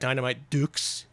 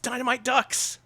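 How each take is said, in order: First: The last word has a long 'oo' vowel. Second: The last word has a short 'uh' vowel.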